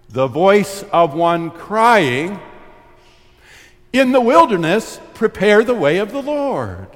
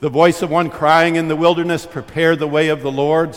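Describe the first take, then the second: First: The pause comes before 'in the wilderness'. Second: The pause comes after 'in the wilderness'. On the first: The way is to be prepared in the wilderness. "For Isaiah, good news, it lies with the preparation" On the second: The one crying out is in the wilderness. "In Luke"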